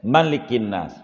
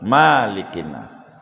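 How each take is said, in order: First: The vowel after the m is short. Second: The vowel after the m is long. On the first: The speaker calls it right. "wajib pendek" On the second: The speaker calls it wrong. "nggak boleh"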